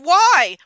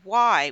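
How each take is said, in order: First: It is said loudly, in a yelling voice. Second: It is said in a whiny child's voice.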